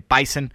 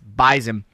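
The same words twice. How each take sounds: First: The word is said the common, widespread way. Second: The word is said the local way. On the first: This is how most outsiders say the nickname. The speaker calls it wrong. "A lot of people say Bison, and it would seem it's pronounced that way" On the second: This is how local fans say the nickname. The speaker calls it right. "but up here in Fargo and in the area, it's Bison"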